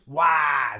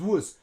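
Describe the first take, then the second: First: The vowel is a full, unreduced short vowel. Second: The vowel is reduced to a weak schwa. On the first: The speaker calls it wrong. "we don't use was. We don't use the short A" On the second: The speaker calls it right. "We use schwa"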